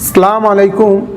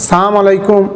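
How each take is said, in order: First: The greeting is clipped, with sounds left out. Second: The greeting is clipped, with sounds left out.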